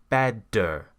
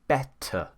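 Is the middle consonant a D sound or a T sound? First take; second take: D sound; T sound. First: The middle consonant sounds like a D. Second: The middle consonant is a crisp T. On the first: This is how Americans say it. "an American pronounces it as a D" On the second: This is how Southern English speakers say it. "We say better"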